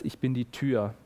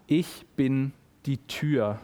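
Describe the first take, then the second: First: Said in the usual way. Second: Slow, weighty proclamation of „Ich bin die Tür“; slow ceremonial announcement; solemn quote. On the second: Shown as a demonstration. Quoting Jesus, opening the theme.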